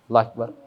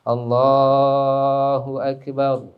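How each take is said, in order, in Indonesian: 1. Diucapkan dengan cepat dan dibuat pendek. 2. Diucapkan perlahan dengan vokal dipanjangkan.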